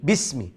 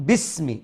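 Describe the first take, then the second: Both takes have the same delivery.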